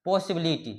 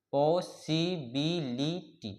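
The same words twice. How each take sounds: First: Said in the usual way. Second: "possibility" very slowly as पॉ, सि, बि, लि, टी; five separate beats on "possibility"; split into syllables. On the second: Shown as a demonstration. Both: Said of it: "ये five syllable वाले word है".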